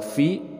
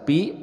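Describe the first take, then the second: First: It starts with an f sound. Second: It starts with a p sound. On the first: The speaker calls it right. "tapi huruf uh, fi" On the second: The speaker calls it wrong. "bukan dibaca pi"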